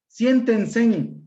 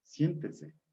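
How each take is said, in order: First: "Siéntense" said as SIÉN-ten-sen, extra final N, loud; high, loud Siéntense with an N closing it; metathesis pronunciation. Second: Said in the usual way. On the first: Shown as a demonstration. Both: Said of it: "palabra con metatesis".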